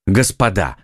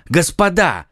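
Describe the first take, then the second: First: Said in the usual way. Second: Higher urgent call to order; exclaiming. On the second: Acted. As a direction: cut the teasing short. (громкий призыв к порядку) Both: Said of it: "воскликнул Д'Артаньян".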